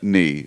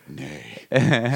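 First: The vowel sounds like the word knee. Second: The vowel sounds like the word day. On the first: "Is that how you say it?" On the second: "I always said nay in my head, like a horse"

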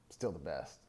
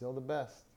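First: It is said with scornful contempt. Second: It is said with warm approval.

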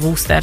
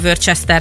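First: It is said the original English way. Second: It is said the common Hungarian way. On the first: This is how it should properly be said. The speaker calls it right. "de egyébként" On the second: This is how people in Hungary usually say it. The speaker calls it wrong. "Itt a hagyomány szerint Magyarországon, ahogy a szájon forog"

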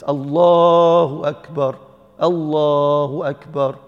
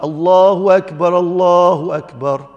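First: There is a pause after the first phrase. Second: The two phrases run together without a pause.

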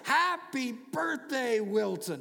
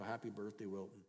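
First: It is said in a joyful, excited way. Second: It is said in a flat, unexcited way.

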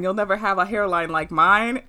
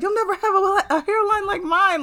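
First: It is said in a calm, plain way. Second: It is said in an aggressive, forceful way.

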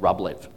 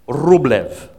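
First: The name has an Australian-style pronunciation. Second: The name has its original, foreign-style pronunciation. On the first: "For us Aussies" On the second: "That's probably how you pronounce it"

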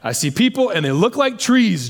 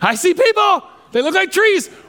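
First: It sounds disappointed and let down. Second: It sounds excited and amazed.

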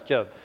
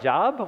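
First: It does not sound like the word 'job'. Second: It sounds like the word for work, 'job'. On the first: It is the name of the biblical figure. The speaker calls it right. "So no, it's Job" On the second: The reader mistakes the name for a common noun. The speaker calls it wrong. "Why do I want to read a book about my job?"

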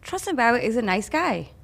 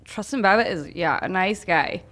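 First: It is said plainly and sincerely, without hesitation. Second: It is said with a doubtful pause and sarcastic tone. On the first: The person really is nice. "even a nice phrase" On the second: The person is not really nice. "You can put any slant on anything"

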